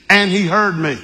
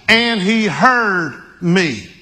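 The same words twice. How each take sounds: First: Said in the usual way. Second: Each word of "And he heard me" drawn out slowly and weighted; slow emphatic. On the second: Shown as a demonstration. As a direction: lean on "And he heard me", slow and deliberate. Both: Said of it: "repeated for emphasis".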